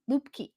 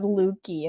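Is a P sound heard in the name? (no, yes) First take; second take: yes; no. First: The name is said with a P sound. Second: The name is said without a P sound. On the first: The speaker calls it right. "There is a P" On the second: The speaker calls it wrong. "then I just forgot about the P"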